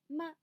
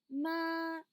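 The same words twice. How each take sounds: First: The syllable is said without a tone, neutrally. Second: The syllable carries a distinct lexical tone. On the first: It is a particle used to ask a question. "sin tono así neutro" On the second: It means mother. "si decimos ma significa mamá"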